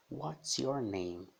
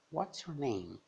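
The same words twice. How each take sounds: First: Pergunta em inglês bem devagar, palavra por palavra; modelo pausado. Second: Pergunta em inglês ligada, em tom agudo; modelo mais fluente. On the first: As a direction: diga WHAT'S YOUR NAME devagar, como modelo. Professora modela frase devagar, depois repete. (modelo lento de pronúncia) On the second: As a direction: diga WHAT'S YOUR NAME de uma vez, mais agudo. Repete a frase mais ligada. (repetição fluente e aguda) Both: Shown as a demonstration.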